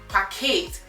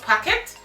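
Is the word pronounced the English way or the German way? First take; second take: German; English. First: The word is pronounced the German way. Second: The word is pronounced the English way. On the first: The speaker calls it right. "but Paket" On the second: The speaker calls it wrong. "not packet ... Packet is English"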